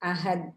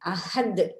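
First: The final consonant is stopped flat without a bounce. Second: The final consonant is released with a strong bounce. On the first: The speaker calls it wrong. "என்று ஓதினால் அது பிழை" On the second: The speaker calls it right. "அழுத்தி உச்சரிக்க வேண்டும்"

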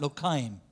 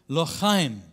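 First: The first consonant is soft, without the throaty sound. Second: The first consonant is a harsh throaty sound. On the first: "How do you say lochaim when you can't do that sound?" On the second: "there's a lot of chuch in Hebrew"

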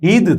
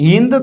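First: No nasal sound comes before the final d. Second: A nasal sound comes before the final d. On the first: The speaker calls it wrong. "જો એ અનુસ્વાર ન ઉચ્ચારો તો શું થઈ જાય? હિદ થઈ જાય" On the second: The speaker calls it right. "એમાં ફરજિયાત એની ઉપરનો જે અનુસ્વાર છે ને આપણે ઉચ્ચારવો જ પડે"

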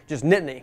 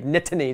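First: The T is pronounced lightly and softly. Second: The T is pronounced strongly and crisply. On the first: The speaker calls it right. "just Nittany" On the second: The speaker calls it wrong. "not so much on the T"

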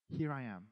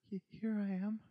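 First: It is said calmly and steadily. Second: It is said fearfully, with a stutter.

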